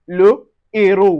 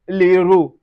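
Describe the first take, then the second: First: The article's vowel is said fully before the noun. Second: The article's vowel is dropped and joined to the noun. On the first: The speaker calls it right. "On dit le héros. We pronounce it separately" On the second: The speaker calls it wrong. "So we don't say l'héros"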